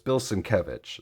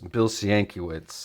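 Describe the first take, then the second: First: The name is said the way he later heard. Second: The name is said the way he once assumed. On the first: This is how the speaker heard someone else say it. The speaker calls it right. "pronounce it correctly, but it's" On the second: This is how the speaker first thought it sounded. The speaker calls it wrong. "I used to think his name was"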